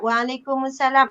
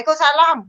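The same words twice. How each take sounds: First: It is said in a weak tone. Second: It is said in an angry tone.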